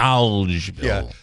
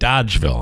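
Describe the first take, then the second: First: The word is said with an L sound. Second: The word is said without an L sound. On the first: The speaker calls it right. "There's an L in there" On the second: The speaker calls it wrong. "Here in Utica, they call it Dodgeville"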